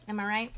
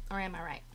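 First: Said in the usual way. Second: Low, quiet aside; soft teasing murmur. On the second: Shown as a demonstration. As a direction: drop the voice, knowing tone.

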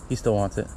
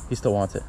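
No difference in how they are said.

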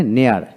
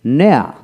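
First: "নেয়ার" with the final r sounded; American pronunciation. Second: "নেয়া" with no final r; non-rhotic British "নেয়া"; British pronunciation. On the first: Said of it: "আমেরিকানে নেয়ার". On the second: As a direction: say "নেয়া" the British way, ending on an open vowel. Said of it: "ব্রিটিশে". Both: Shown as a demonstration.

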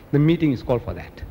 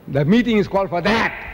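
First: Said in the usual way. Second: "that" hit hard with rising pitch; stress on THAT. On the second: Real, not acted. Speaker complaining about the meeting's purpose, punching "that". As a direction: repeat it indignantly, punching "that". Heated repeat of the statement.

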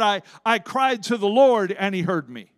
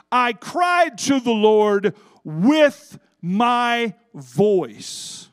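First: Said in the usual way. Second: Loud, with "with my voice" stretched out word by word; stress on "with my voice". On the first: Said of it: "he could have said". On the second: Shown as a demonstration. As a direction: proclaim it, slowing hard on "with my voice". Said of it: "He added the phrase".

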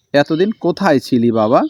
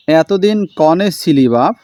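First: Said in the usual way. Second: Slow, a light south Bengal dialect; dialect line. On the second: Shown as a demonstration. Teacher reads the father's question in a light south Bengal dialect. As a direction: ask এতদিন কনে ছিলি বাপ in a mild village dialect.

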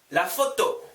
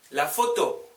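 Both takes have the same delivery.

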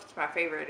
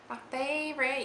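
First: Said in the usual way. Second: Playful Southern twang on "favorite", higher; put-on Southern accent, raised pitch. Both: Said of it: "slip into a southern accent".

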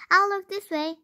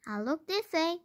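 First: High loud first look; higher and louder. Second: Said in the usual way. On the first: Acted. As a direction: call it out looking left. Searching one way then the other.

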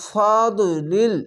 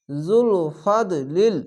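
First: ফাদলিল very slow, syllables drawn apart; slow recitation. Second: জুল ফাদলিল very slow, joined as one phrase; slow joined recitation. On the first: Teacher recites the Quranic word for learners, slow. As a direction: chant ফাদলিল slowly. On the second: Teacher joins the spelled parts for students, slow recitation. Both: Shown as a demonstration. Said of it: "লাম লামজের লিল".

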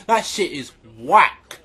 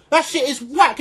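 First: Dropped low and slowed, That shit is whack; deep slow repeat. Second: Said in the usual way. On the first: Acted. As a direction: drag 'whack' out deep and slow. Repeated line, deep slow take.

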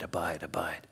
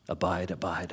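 First: Abide, abide breathed in a whisper. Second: Abide, abide said low and hushed; soft repetition. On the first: Preacher lets the word abide fade out, whispered. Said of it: "repetition fades to a whisper". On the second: Preacher softly repeats abide to congregation, hushed. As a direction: let "abide" sink in quietly. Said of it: "repeating the Greek word softly". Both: Shown as a demonstration.

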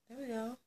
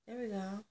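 Both takes have the same delivery.

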